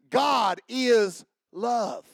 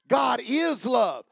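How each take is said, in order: First: GOD slowed and leaned on, falling; slow, weighty God is love; stress on God. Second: IS hit loud and high, falling; stress on is. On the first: Preacher to congregation, slow weighty stress. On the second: Preacher to congregation, shouting IS. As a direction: shout the word is. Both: Shown as a demonstration.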